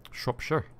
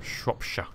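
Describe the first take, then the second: First: Said in the usual way. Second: Mock rural Shropshire accent. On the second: Shown as a demonstration. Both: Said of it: "I can do farmer".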